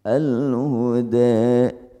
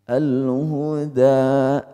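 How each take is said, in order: First: The final vowel is between a and e. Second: The final vowel is a clear open a. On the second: "fathah namanya"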